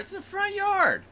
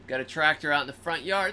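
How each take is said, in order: First: It's in the front yard with yard pitched way up; stress on yard. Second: Said in the usual way. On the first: Real, not acted. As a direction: push yard high in disbelief. Stressing how exposed.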